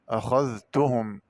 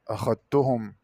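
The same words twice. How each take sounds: First: أخذتهم with dh sounded before t; separate dhal. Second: أخذتهم with dh absorbed into a double t; held tt, no dh in أخذتهم; merged dhal. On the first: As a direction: say أخذتهم slowly as "akhadh-tuhum". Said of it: "قرأ بإدغام الذال في التاء". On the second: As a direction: say أخذتهم as "akhat-tuhum". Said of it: "بإدغام الذال في التاء". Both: Shown as a demonstration.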